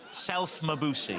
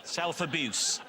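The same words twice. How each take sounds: First: Self-Mabuse slowed, with an added m sound before abuse; Mabuse pun. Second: Said in the usual way. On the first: Shown as a demonstration. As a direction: stretch out Self-Mabuse slowly, with an m joined onto abuse.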